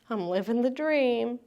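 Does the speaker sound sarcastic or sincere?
sarcastic. It is said in a sarcastic, ironic tone. The speaker means the opposite and is unhappy. "You can also say it in a sarcastic tone"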